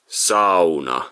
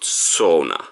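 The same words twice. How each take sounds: First: It is said with a Finnish pronunciation. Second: It is said with an English pronunciation. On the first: "Finnish people, they pronounce it sauna" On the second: "not sauna"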